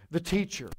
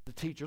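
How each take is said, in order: First: Said in the usual way. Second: The teacher dropped to a much softer echo. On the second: Shown as a demonstration. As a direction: let "the teacher" fall away quietly. Repeats the phrase for effect.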